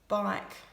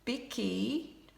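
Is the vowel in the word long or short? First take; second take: long; short. First: The vowel is a long i sound. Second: The vowel is short, with an extra syllable. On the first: The speaker calls it right. "needs the long I sound" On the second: The speaker calls it wrong. "we don't say bicky"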